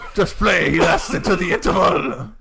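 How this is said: It is spoken in a put-on French accent.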